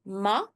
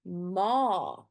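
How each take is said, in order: First: "ma" with a short, cut-off A; short vowel. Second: "ma" with a long, drawn-out A; long vowel. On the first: Teacher shows learners the wrong "ma", short A. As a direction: say "ma" quickly, A not held. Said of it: "It's not ma". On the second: Teacher shows learners the correct "ma", long A. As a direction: hold the A in "ma". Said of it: "the sound of the A is very long". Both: Shown as a demonstration.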